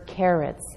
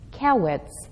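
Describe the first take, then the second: First: The middle consonant is an R sound. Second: The middle consonant is a W sound. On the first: The speaker calls it right. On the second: The speaker calls it wrong.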